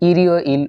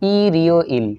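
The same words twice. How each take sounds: First: It is said smoothly, all in one go. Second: It is said slowly, syllable by syllable. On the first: "একবারে যদি পড়ি তাহলে এরকম শোনা যাবে" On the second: "ভেঙে ভেঙে তো উচ্চারণ করে পড়াইছি"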